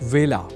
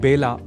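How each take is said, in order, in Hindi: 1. यह शब्द v ध्वनि से शुरू होता है। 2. यह शब्द b ध्वनि से शुरू होता है। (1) "एक और शब्द है वेला" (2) "इसे बेला नहीं बोला जाना चाहिए"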